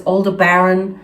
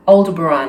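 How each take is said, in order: First: Aldebaran with "BARE-un" at the end; mispronunciation of Aldebaran. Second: Aldebaran ending in a long, open "ahn"; correct pronunciation of Aldebaran. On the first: Quoting how other people say it, Aldebaran stressed on "bare". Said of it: "It's not that". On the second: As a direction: say Aldebaran as "ol-de-buh-RAHN". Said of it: "exactly that's how it's pronounced". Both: Shown as a demonstration.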